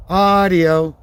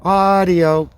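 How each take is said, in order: Both takes have the same delivery.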